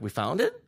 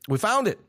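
First: "We found it?" with the tune rising at the end; question. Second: Said as a flat statement, falling at the end; "We found it" as a firm announcement, pitch falling. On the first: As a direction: ask "We found it?" as an unsure question. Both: Retold or imitated. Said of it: "question mark".

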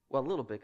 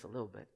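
First: Said in the usual way. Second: "a little bit" dropped much softer, lower, almost to himself; softer aside. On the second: Real, not acted. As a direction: mutter it as a sheepish afterthought.

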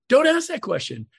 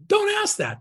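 First: "Don't" punched high and louder; stress on DON'T. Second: "Don't" hit sharply high; stress on DON'T. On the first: Coach repeating his warning, DON'T stressed. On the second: Coach warning agents, stress on DON'T. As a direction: warn them off, leaning hard on "Don't". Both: Real, not acted.

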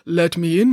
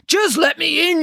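First: Smooth, sugary wolf; honey-softened voice. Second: High, rough, impatient wolf. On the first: Wolf coaxing piglets after eating honey, honey-softened voice. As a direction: coax sweetly as a disguised wolf. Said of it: "honey-softened voice". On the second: Wolf losing patience with doubting piglets, rough voice. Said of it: "Your voice is too rough". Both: A narrator's reading.

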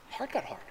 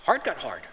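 First: Whispered repeat. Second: Said in the usual way. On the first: Shown as a demonstration. Preacher whispering a warning to the congregation. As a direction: whisper it, unvoiced and hushed.

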